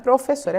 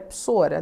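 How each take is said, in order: First: The word is said in full, every syllable. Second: The word is clipped to two short syllables. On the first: "Não é professora" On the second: "é psora"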